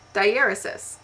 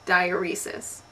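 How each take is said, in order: First: The word does not sound like 'diarrhea'. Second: The word begins like the word 'diarrhea'. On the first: The speaker calls it right. "another word that I just learned how to pronounce" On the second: The speaker calls it wrong. "I have always thought it was pronounced diuresis, like diarrhea"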